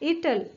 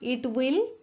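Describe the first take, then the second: First: The words merge into one contracted word. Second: Both words are said in full, separately. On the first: "याचा कसा होईल इटल"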